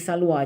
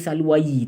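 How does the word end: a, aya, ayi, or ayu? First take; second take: a; ayi. First: The word ends in a plain long a. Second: The word ends with an added yi sound. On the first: The speaker calls it right. "tuan-tuan kena baca salwa" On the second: The speaker calls it wrong. "tak boleh baca salwayi"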